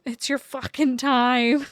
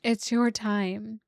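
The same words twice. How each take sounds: First: Loud, slow, leaning hard on time; emphatic cheer. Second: Slow, gentle, settled restatement. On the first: Reader cheering her viewers on, loud and emphatic. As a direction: punch it out like a rallying cry. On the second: Softer repeat after laughing. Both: Real, not acted.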